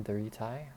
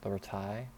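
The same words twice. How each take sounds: Both takes have the same delivery.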